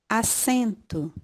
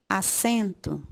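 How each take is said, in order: Both takes have the same delivery.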